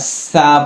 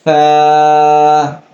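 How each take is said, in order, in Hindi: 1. यह सीटी जैसी 's' की आवाज़ से शुरू होता है। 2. यह जीभ को दांतों के बीच रखकर शुरू होता है। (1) "इश या सीटी का आवाज़ ना आ सके" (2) "ज़बान को हल्का दांतों से दबाकर इसे अदा करेंगे"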